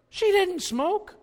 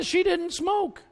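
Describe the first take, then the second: First: She drawn out, high and slow; emphatic repeat. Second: She drawn out, high and slow again; emphatic repeat. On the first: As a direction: stretch "She didn't smoke" high and slow. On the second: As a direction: land "she didn't smoke" slow and high, falling. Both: Shown as a demonstration.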